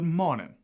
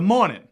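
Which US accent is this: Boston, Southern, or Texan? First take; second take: Southern; Boston. First: A Southern accent with the R dropped. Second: A Boston accent with the R dropped. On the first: "A Southerner might say good morning" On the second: "up in Boston, they would say"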